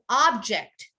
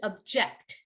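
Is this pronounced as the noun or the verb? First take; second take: noun; verb. First: It is said with the noun pronunciation. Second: It is said with the verb pronunciation. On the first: It names a thing. "The noun version is an object" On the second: It means to disagree with something. "The verb is to object"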